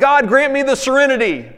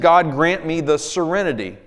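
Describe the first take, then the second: First: It is yelled loudly. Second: It is said calmly at normal volume.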